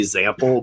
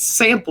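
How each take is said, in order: First: The middle consonant is a z sound. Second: The middle consonant is an s sound. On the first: "I have the Z instead of the S sound" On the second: "my sister's like, no, it's sample"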